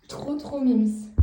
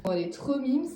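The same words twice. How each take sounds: First: Slow, drawn-out "Trop, trop mimes"; slow doting coo over the dog. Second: Said in the usual way. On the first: Real, not acted. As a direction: stretch out "mimes" lovingly.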